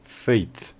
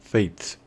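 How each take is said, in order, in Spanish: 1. La vocal es un deslizamiento largo ay. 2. La vocal es un deslizamiento largo ay.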